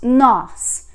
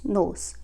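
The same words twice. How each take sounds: First: The vowel is open and strongly stressed. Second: The vowel is closed and less strong. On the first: It means we. "with this accent we pronounce nos, you know, stronger, more open sound" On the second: It means in the, as in a place. "without the accent we would pronounce nos"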